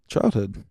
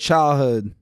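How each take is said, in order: First: The word is said at normal volume. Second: The word is shouted loudly.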